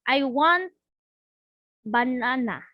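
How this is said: It is said with hesitations and blocks. "the student with fluency disorder can say"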